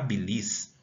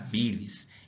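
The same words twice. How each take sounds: First: The stress is on the second syllable. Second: The stress is on the first syllable. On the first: The speaker calls it wrong. "eu não falo que eu estou com problema na bilis" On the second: The speaker calls it right. "eu falo que eu estou com problema na bilis; A sílaba aqui tônica é o bi"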